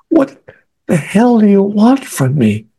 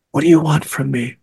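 First: High, drawn-out exasperated demand; retold inward scream. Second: Restrained, held-in demand; retold inward scream. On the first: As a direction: demand it at a high pitch, acting out anguish. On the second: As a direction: plead under your breath, a mock scream kept inside. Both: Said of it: "I'm screaming inside my head".

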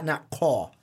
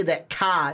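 First: "Ka" said rounded like "caw"; the wrong rounded "Ka", like "kaw". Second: "Ka" said flat and open like "cah". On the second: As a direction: say "Ka" with a wide open vowel. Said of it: "It's that C A". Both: Shown as a demonstration.

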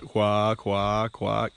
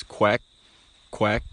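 First: Slow, drawn-out quack notes. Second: Short quacks cut off at the end; clipped quack. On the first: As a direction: let each quack run on too long. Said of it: "No ducks run their notes through like". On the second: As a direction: stop each quack sharply. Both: Shown as a demonstration.

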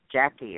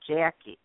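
First: Jackie with an ordinary short A; "Jackie" as outsiders pronounce it, A kept short; other people's pronunciation. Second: "Jackie" with a drawn-out Midwestern A; Midwestern long A. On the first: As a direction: say "Jackie" without the long Midwestern A. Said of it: "other people say Jackie". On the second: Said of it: "we have our long A's". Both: Shown as a demonstration.

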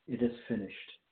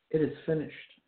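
First: Soft, falling and spent; fading voice. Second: A firm, strong proclamation; powerful voice. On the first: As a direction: let the words die away quietly. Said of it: "not in a voice that would indicate he was fading away". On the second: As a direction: declare it with victory, not fading. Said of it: "in a powerful voice, in a power-filled voice". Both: Shown as a demonstration.

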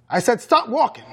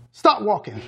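First: Higher-pitched, insistent order; roared command. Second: Said in the usual way. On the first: A narrator's reading. Mother ordering her son to halt, mild roar. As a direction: repeat the command more forcefully, pitch raised. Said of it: "she roared". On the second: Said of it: "she said before she held".

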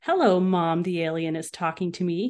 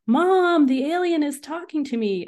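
First: Sophisticated way. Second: High, loud shout to mom inside; calling out loudly for mom. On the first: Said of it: "he said in a very sophisticated way". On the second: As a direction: yell it across the house. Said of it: "I shouted to my mom". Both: A narrator's reading.

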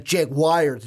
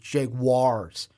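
First: Jaguars said as "JAG-wires"; mispronounced Jaguars. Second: Jaguars said slowly as "JAG-wahrz"; corrected Jaguars. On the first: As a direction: say Jaguars the wrong way, ending like "wires". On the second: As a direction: draw out Jaguars, ending like "wars". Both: Shown as a demonstration. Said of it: "I keep saying that wrong".

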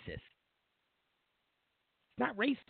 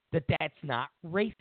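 First: It's not racist. drawn out very slowly, leaning on racist; slow emphatic repeat. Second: Said in the usual way. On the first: Real, not acted. Commentator insisting to viewers, very slow emphatic repeat.

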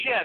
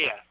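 First: "yeah" with a J sound in front; hard J onset. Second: Said in the usual way. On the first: Shown as a demonstration. Host denying he says it that way, "yeah" said as jeah. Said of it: "I don't say "yeah" there". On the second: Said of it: "I just say "yeah".

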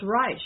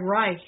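First: Reich said as "rysh"; alternative pronunciation. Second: Reich said as "rike"; K-ending pronunciation. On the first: Telling co-host the other pronunciation, Reich ending in SH. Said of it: "it's also pronounced Reich". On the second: Checking what co-host means, Reich ending in K. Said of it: "you mean like Reich". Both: Shown as a demonstration.

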